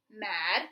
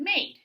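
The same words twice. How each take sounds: First: MAD with the short A of "cat"; short A sound. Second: MADE with A saying its name, "ay"; long A sound. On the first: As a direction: say MAD with a short vowel, for comparison. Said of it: "This is our short sound". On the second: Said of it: "This is our long sound". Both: Shown as a demonstration.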